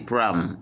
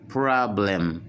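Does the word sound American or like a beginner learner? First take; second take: American; beginner. First: It is said with a natural American pronunciation. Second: It is said with a careful beginner learner pronunciation. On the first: "le plus souvent, les Américains prononcent ça comme vous entendez" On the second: "pour ceux qui apprennent l'anglais comme débutants, eh bien, ils disent"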